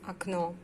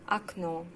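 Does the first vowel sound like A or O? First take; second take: A; A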